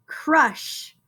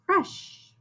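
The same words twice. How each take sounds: First: Said in the usual way. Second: "crush" said whole after sounding out; blended word. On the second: Shown as a demonstration. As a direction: blend it back together. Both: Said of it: "Did you guys hear that C R?".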